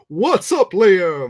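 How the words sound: It is said in an All Might impression.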